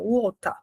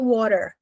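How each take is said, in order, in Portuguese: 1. O T do meio é um som de T claro. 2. O T do meio é um som rápido e batido, parecido com D. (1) "No britânico, a gente vai falar esse T normal" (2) "é por isso que a gente fala water... No inglês americano"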